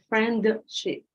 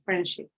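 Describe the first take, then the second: First: The d sound is fully pronounced. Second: The d sound is left out. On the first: The speaker calls it wrong. "You don't have to say friendship because you have to go up and then go down" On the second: The speaker calls it right. "No, you say friendship"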